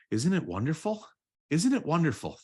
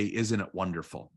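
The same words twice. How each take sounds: First: Higher, lifted and delighted, growing brighter; rising joy. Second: Said in the usual way. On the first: Shown as a demonstration. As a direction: let the gratitude lift you up, higher each time. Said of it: "And then I'm just gonna say". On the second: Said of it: "And then I say".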